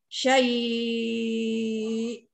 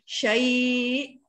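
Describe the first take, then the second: First: The vowel before the final glottal stop is held very long. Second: The vowel before the final glottal stop is held briefly. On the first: "enam harakat" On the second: "dua harakat"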